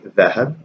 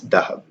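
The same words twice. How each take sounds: First: It is said with the Standard Arabic sound. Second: It is said with the colloquial Arabic sound. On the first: This is the formal written form. "In Fusha it would be" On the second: This is the everyday spoken form. "but in Ammiya it's"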